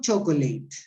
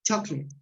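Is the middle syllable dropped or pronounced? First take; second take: pronounced; dropped. First: The middle syllable is fully pronounced. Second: The middle syllable is dropped. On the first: The speaker calls it wrong. "It's not chocolate" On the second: The speaker calls it right. "the syllable in the middle disappears"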